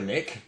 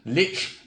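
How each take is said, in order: First: The word ends in a 'k' sound. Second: The word ends in a 'ch' sound. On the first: The speaker calls it wrong. "Many prefer Lick, but we've established that's incorrect" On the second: The speaker calls it right. "we harmonise on Lich"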